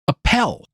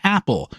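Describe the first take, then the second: First: The stress is on the second syllable. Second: The stress is on the first syllable. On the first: "emphasis on the second syllable" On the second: "pronounced his last name Apple"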